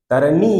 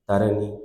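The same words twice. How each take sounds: First: তারানি said loud and rising, the whole word hit hard; stressed word. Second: Said in the usual way. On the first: Shown as a demonstration. Teacher showing the force in তারানি, loud and rising. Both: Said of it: "এটা জোর আছে".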